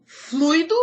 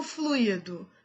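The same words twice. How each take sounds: First: "Fluido" as FLÚI-do, two syllables, rising; stress on U. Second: "fluido" as flu-Í-do, three syllables, falling; stress on I. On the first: Teacher asking which is right, stress on U. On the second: Teacher offering the other form, stress on I. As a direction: move the weight to I in "fluido". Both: Shown as a demonstration. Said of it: "Qual é o certo?".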